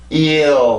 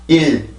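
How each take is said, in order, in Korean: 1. 모음에서 점점 위로 올라가면서 L로 이어져요. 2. 모음이 바로 짧은 L로 이어져요. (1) "영어 같은 경우는 아래에서 출발해서 위로 올라가기 때문에 일" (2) "우리나라 같은 경우는 혀가 위에 있기 때문에 같은 리을 발음을 하더라도 그냥 일"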